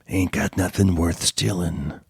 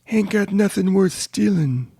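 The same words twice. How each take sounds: First: It is said in a Wolverine-like voice. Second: It is said in a Winnie the Pooh-like voice.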